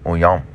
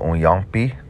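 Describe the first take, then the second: First: The final vowel is dropped, ending on m. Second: The word ends with a full final vowel. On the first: "They'll swallow it like mom" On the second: "Instead of unyampi"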